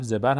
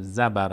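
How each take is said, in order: First: زبر said as "zebar"; dialect variant pronunciation. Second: زبر said as "zabar"; dialect variant pronunciation. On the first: Teacher showing a regional variant, زبر as "zebar". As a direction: say زبر with a short e first, "zebar". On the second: Teacher showing the other variant, زبر as "zabar". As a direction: say زبر with short a in both syllables, "zabar". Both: Shown as a demonstration.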